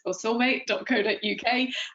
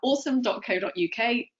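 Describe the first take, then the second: First: The name is said with Japanese syllables, oh-so-meh. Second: The name sounds like the English word awesome. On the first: "known in Japan as" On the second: "I'm going to go with more of your version"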